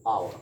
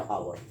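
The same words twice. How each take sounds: First: Our starting straight on the vowel; no h at the front of our; silent h. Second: Our said as "hower", with an audible h; wrong sounded h. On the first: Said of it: "we pronounce". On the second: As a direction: add an h to the front of our. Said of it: "not our". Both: Shown as a demonstration.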